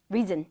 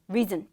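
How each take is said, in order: First: The first vowel is said short and clipped. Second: The first vowel is said short and clipped.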